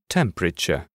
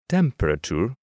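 First: The ending has a clear English sound. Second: The ending sounds partly Spanish. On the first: The speaker calls it right. "instead of" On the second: The speaker calls it wrong. "Learners tend to pronounce these words with a mixture of Spanish and English"

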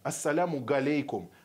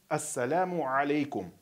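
First: The second word begins with a hard g sound. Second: The second word begins with a throaty sound. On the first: The speaker calls it wrong. "неправильно говорить галейкум" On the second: The speaker calls it right. "нужно говорить ассаляму алейкум"

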